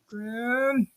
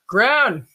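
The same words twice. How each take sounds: First: The name is called weakly and half-heartedly. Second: The name is called loudly and forcefully.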